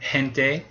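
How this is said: It begins with a soft breathy h sound. This is more common in Latin America. "you can use just the same sound as the English letter H"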